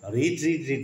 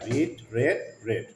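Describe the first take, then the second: First: All three words have the long 'ee' vowel. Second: The last two words have the short 'e' vowel. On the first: The speaker calls it wrong. "রিড রিড রিড না" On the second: The speaker calls it right. "কি উচ্চারণ করতে হয়? রেড।"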